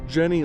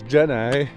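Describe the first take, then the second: First: The name is said as Jenny. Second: The name is said as Jenai.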